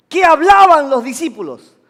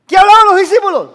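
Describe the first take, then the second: First: Loud question to the congregation; raised preaching voice. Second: High, fast, very loud demand; urgent shouted question. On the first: Preacher quizzes the congregation on the disciples, raised voice. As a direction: put the question out firmly and loudly. First asking of congregation, louder. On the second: Preacher presses the congregation to answer, urgent shout. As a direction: fire the question at the crowd. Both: Real, not acted.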